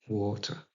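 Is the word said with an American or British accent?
British. A British accent with a clear T sound. The speaker calls it right. "en anglais R P, donc, ou Queen's English"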